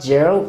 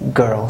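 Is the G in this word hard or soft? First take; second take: soft; hard. First: The G is a soft sound, like in jam. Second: The G is a hard sound, like in go. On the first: The speaker calls it wrong. "So it is not girl" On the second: The speaker calls it right. "it is girl. So this is an exception"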